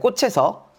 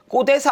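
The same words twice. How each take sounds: First: The final consonant is heard as a 'ch' sound. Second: The final consonant is heard as a 'd' sound. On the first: The speaker calls it right. "꽃에서예요" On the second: The speaker calls it wrong. "꽃에서 아니에요"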